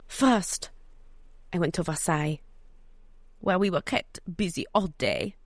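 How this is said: It is said in an attempted French accent.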